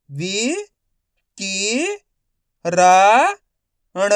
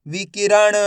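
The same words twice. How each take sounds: First: वि, कि, रा, ण as separate sounds; syllable by syllable. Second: विकिरण joined up; विकिरण in one unbroken piece; blended whole word. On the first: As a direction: sound out विकिरण one syllable at a time. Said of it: "एक अक्षर का उच्चारण करके". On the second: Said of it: "तो मिलके बन जाएगा". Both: Shown as a demonstration.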